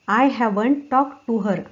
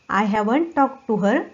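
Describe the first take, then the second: Both takes have the same delivery.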